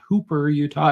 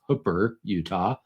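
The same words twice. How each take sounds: First: Hooper is said the usual outsider way. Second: Hooper is said the local way. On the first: The speaker calls it wrong. "It's not" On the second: The speaker calls it right. "that is the correct pronunciation"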